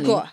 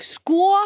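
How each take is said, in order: First: It sounds like a resigned 'okay then'. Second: It sounds like a triumphant 'told you'.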